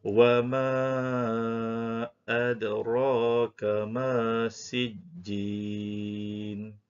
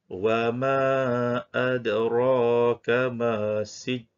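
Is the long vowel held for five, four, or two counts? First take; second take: four counts; two counts. First: The long vowel is held for four counts. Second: The long vowel is held for two counts. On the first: "Dibaca dengan empat harakat" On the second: "dibaca dengan dua harakat"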